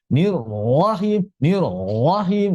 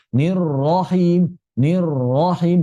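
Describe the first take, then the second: First: Nirrahim pushed into the throat; wrong nirrahim. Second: Natural nirrahim, not forced into the throat; right nirrahim. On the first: Teacher showing students a mistaken reading. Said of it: "nah, itu tidak begitu". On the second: Teacher showing students the natural reading. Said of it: "Begitu ya". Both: Shown as a demonstration.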